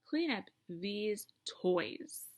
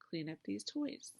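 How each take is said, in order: First: It is said forcefully, with strong feeling. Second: It is said calmly, without strong feeling.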